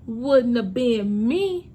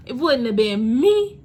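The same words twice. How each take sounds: First: Repeated slowly for emphasis; slow echo. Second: Slow and louder, stress on "me"; first firm take of "wouldn't have been me"; emphatic, louder. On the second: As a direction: lean hard on "me", slowly. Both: Shown as a demonstration.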